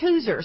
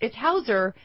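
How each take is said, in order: First: The first vowel sounds like 'oo'. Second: The first vowel sounds like 'ow'. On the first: "but it's Hooser" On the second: "because it's Hauser"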